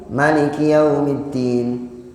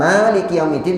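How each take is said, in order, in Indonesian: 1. Vokal pertama dari maliki dibaca pendek. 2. Vokal pertama dari maliki dibaca panjang. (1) "tidak panjang"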